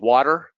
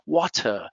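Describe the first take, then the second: First: The middle T sounds like a soft D. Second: The middle T is clear and crisp. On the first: "water with a T or a D" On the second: "the T is very clear in British English"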